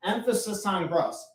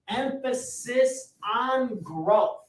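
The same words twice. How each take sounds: First: Said in the usual way. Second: "growth" drawn out slow and high, leaning on "on"; emphasis on growth. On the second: Shown as a demonstration. Coach writing on the board stresses the word growth, slow and rising.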